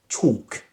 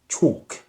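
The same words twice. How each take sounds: No difference in how they are said.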